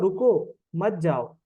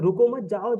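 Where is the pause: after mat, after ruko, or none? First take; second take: after ruko; after mat. First: A pause comes right after the word ruko. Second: A pause comes right after the word mat. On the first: The listener is told to stay and not leave. "भाई रुक जा, मत जा" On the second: The listener is told not to stop but to go. "जाओ जाओ जाओ, निकल जाओ निकल जाओ, यहाँ मत रुको"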